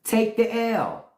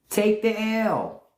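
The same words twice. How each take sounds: First: Slow, weighty "Take the L."; drawn out. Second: Very slow, final "Take the L."; slower still. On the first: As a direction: lean on each word of "Take the L.". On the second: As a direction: spell out "Take the L." slowly. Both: Shown as a demonstration. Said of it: "Take that L".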